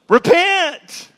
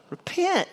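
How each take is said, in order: First: High, louder cry of repent; prophet's cry. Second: High but softer, falling repent; softer echo. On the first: John calling the people to repent, a high cry. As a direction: call out like a prophet. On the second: John repeating his call to repent, high and softer. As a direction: let the second one drop away. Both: Acted.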